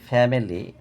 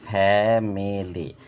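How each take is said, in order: First: Said in the usual way. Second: ফ্যামিলি slow as ফ্যা, মি, লি; split in three syllables. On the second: Shown as a demonstration. Teacher showing three syllables, ফ্যামিলি slowly broken up. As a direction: give ফ্যামিলি three long beats. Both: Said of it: "syllable তিনটে".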